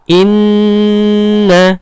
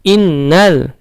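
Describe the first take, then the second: First: The n sound is held with nasal resonance. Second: The n sound is short and plain. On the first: The speaker calls it right. "nunnya bertasdid, maka ditahan" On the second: The speaker calls it wrong. "jangan diizharkan"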